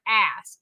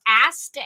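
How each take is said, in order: First: "ass" ending on S, no T; mistaken name pronunciation. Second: "Ast" with its final T sounded; careful name pronunciation. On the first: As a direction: say "ass" without any final T. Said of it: "not ass". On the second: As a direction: say "Ast" clearly, ending on a T. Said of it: "I do this on purpose because". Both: Shown as a demonstration.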